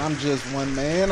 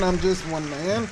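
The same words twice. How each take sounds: First: Said in the usual way. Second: Higher, hammed-up humble plea; mock humble. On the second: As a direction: play the modest star for laughs.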